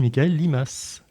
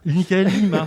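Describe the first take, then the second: First: The surname ends with an audible s sound. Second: The surname ends on a vowel, no s. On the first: The speaker calls it wrong. "je le prononce le S" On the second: The speaker calls it right.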